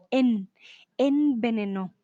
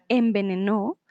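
First: Envenenó with a distinct n, "en-venenó"; envenenó split after a clear "en". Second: Envenenó said naturally as "embenenó"; envenenó with lips closing, em-be-ne-NÓ; M-like nasal. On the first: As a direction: keep the tongue up for the n in envenenó, no m. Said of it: "pero no la hay, ¿vale?". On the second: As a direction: let the n of envenenó close into an m before the b. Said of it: "pareciera que hubiera una M por ahí". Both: Shown as a demonstration.

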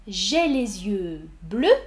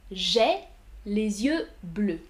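First: Said in the usual way. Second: Each word laid out slowly; slow teaching read. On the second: Shown as a demonstration. Teacher spacing out a model sentence for the class. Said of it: "Deux phrases positives".

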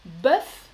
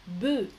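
First: Bœuf with open eu and a clear F; Bœuf, sound the final F; singular pronunciation. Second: Bœuf as closed eu, F silent; plural pronunciation. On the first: Teacher contrasts singular and plural, F sounded. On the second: Teacher contrasts singular and plural, F dropped. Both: Shown as a demonstration. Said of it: "La même chose pour l'animal".

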